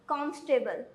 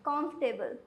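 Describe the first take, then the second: No difference in how they are said.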